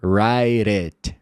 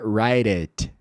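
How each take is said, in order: First: The t becomes a quick tap, like a flap. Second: The t becomes a quick tap, like a flap.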